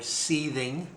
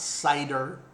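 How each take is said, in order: First: The word is said like 'seething'. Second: The word is said like 'cider'. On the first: "You may mispronounce it another way, or seething" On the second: "and it's not cider"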